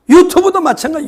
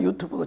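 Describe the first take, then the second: First: Said in the usual way. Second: 유튜브도 repeated much softer; quiet afterthought on 유튜브도; soft echo. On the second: Real, not acted. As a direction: let 유튜브도 fall to a murmur.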